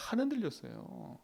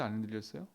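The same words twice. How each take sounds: First: 안 흔들렸어요 answered high on 안 with a falling, settled close; firm answer. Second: 안 흔들렸어요 asked on a rising question tune, low and soft. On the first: Preacher answers his own question that David did not waver, firmly. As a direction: drop 안 흔들렸어요 down at the end as a firm statement. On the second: Preacher asks the congregation whether David wavered, rising question. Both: Shown as a demonstration.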